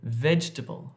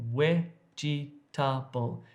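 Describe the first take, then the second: First: It is said with a standard English accent. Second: It is said with a Dravidian-influenced accent. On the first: "instead of vegetable" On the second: "vegetable in English becomes vegetable"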